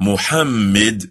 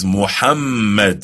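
First: Muhammad with a short flat ending, lightly stressed; wrong pronunciation. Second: Muhammad with a doubled m, stress on the middle syllable; correct pronunciation. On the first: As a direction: say Muhammad loosely, no doubled m. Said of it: "His name is not pronounced". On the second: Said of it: "but rather it is Muhammad". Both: Shown as a demonstration.

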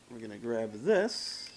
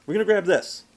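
First: "this" ending in a long hissing s; drawn-out s like a snake. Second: "this" said loud with a short clipped s; short crisp s, loud. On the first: Real, not acted. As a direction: stretch the s of "this" like a snake. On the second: Shown as a demonstration. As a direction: snap "this" off loud and quick. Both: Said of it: "See, I did it again".

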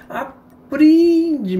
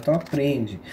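First: Pitched way up and louder, drawn out; exasperated high yelp. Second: Said in the usual way. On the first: Shown as a demonstration. Teaching the viewers, a high exasperated "aprende". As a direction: hammer the lesson home with a shrill cry. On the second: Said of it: "Aprende, meu Deus do céu".

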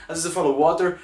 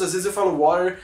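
First: "water" with a clearly sounded T, like "wó-ter"; hard-T pronunciation. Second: "water" with a soft flapped T, like "wah-der"; soft-T American pronunciation. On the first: Host showing viewers the other way, "water" with sounded T. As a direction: say "water" with a crisp T instead of a flap. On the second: Host admitting confusion to viewers, "water" with soft flapped T. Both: Shown as a demonstration. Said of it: "Eu fico meio confuso".

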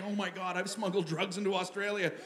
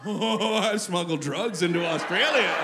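First: Hushed mock horror; softly aghast, as if just caught; white-hot panic. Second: Slow, drawn-out self-impressed gloat; impressed realization. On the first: Traveler realizing what he has smuggled, understated mock panic. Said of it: "Panic, just white hot panic". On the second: Acted. Traveler's second thought after the panic, slow mock pride. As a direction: savor it slowly, like a dawning boast. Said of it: "Immediately followed by the thought".

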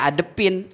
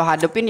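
First: "adepin" starting straight on the vowel; dropped initial H. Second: Said in the usual way. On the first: Shown as a demonstration. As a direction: say "adepin" with no h at the front. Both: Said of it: "Kalau hadepin ya adepin".

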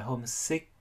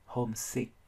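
First: "homesick" ending in Vietnamese -ch instead of k; wrong final consonant. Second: "homesick" ending on a crisp K sound; final K sound. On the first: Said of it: "các bạn thế bằng âm". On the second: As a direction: finish "homesick" with a released k. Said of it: "âm cuối là âm K". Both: Shown as a demonstration.

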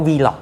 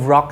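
First: Vlog said as two beats, "vee-log"; alternative pronunciation. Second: Vlog run together as one beat, "vrock"; common pronunciation. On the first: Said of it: "บางคนอาจจะเสียงว่า Vlog ก็ได้". (ออกเสียง Vlog แยกเป็นสองพยางค์ว่า "วีล็อก") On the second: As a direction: say Rock with a v blended onto the front, "vrock". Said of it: "เห็นเขาชอบออกเสียงว่า". (ออกเสียง Rock ควบเป็นพยางค์เดียวว่า "วร็อก") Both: Shown as a demonstration.

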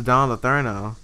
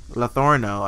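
First: Said in the usual way. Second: "Letourneau" with a clear OR in the middle; corrected pronunciation. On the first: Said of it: "I think, I think, I think his last name was". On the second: Real, not acted. Player correcting the boyfriend's surname, "Letourneau" said with OR. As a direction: say "Letourneau" as luh-THOR-no. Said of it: "I think his last name was".

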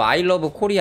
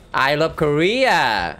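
First: Said in the usual way. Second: I love Korea drawn out very slowly in a mock Japanese accent; exaggerated mock Japanese-accented I love Korea. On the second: Shown as a demonstration. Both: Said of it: "아무리 봐도".

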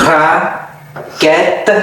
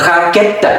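First: Raquette slowly, in two separated parts; syllable by syllable. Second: Said in the usual way. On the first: Shown as a demonstration. Teacher demonstrates raquette for learners, syllable by syllable. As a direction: break raquette in two with a long pause.

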